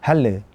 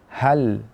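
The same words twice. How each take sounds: First: The final l ends with a bouncing echo. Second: The final l ends smoothly without a bounce. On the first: The speaker calls it wrong. "jangan sampai kita melahirkan qalqalah" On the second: The speaker calls it right. "namun hal di tengah-tengah"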